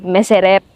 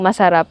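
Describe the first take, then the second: First: The vowels are shifted to 'e' sounds. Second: The vowels are open 'a' sounds. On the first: "we say meserep" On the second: "Instead of saying masarap"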